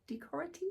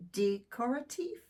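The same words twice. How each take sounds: First: Decorative? repeated quietly with a high rising question; second try at pronunciation. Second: Decorative? said with a questioning rise, slowly; unsure pronunciation. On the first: Reader to her viewers, retrying Decorative? softly and unsure. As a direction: softly test Decorative? again, doubting. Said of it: "Is that how you pronounce it?". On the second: Tarot reader to viewers, testing decorative? with a rising, unsure tone. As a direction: try out the word decorative? tentatively. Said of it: "apologies for the pronunciation". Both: Shown as a demonstration.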